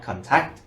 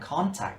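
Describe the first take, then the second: First: It is said with a different stress pattern. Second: It is said with the noun's stress pattern. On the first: The speaker calls it wrong. "not contact" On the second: The speaker calls it right. "Because contact here is a noun too"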